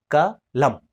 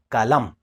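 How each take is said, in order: First: KA, short break, then LAM; syllable by syllable. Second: Said in the usual way. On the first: Shown as a demonstration. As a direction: split the word into KA and LAM, each on its own. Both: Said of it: "ka khorang syllable chik".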